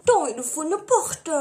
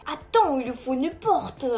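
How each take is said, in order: First: "Attends, il faut une porte" in a mock Marseille-Italian mafia accent; half-Italian, half-Marseille gangster accent. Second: Said in the usual way. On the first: Shown as a demonstration. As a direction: play a mafia guy with a Marseille twang. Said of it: "c'est un mix d'italien ou de mafia". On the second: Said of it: "je le garde en mon accent marseillais".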